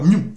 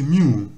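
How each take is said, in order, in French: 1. La voyelle 'oo' est courte. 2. La voyelle 'oo' est allongée. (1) "C'est pas Mew" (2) "c'est Mew. Et on allonge le OU"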